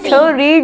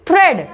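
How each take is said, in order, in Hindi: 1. यह स्वर लंबी ee आवाज़ है। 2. यह स्वर छोटी e आवाज़ है। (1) "थ रीड नहीं बोल रहे" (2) "ए इसमें साइलेंट है"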